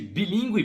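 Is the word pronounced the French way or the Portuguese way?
Portuguese. The word has a Portuguese pronunciation.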